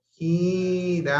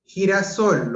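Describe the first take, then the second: First: GI-RA-SOL stretched out slowly; slow classroom syllabifying of Girasol; syllable by syllable. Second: Said in the usual way. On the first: Shown as a demonstration. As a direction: sound out Girasol in long, held syllables. Teacher syllabifies the word to show stress.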